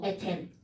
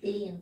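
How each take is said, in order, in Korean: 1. 한국식으로 말하며, 'ten'으로 끝납니다. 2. 영어식으로 말하며, 'theen'으로 끝납니다. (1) "콩글리시죠" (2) "영어는 에틴"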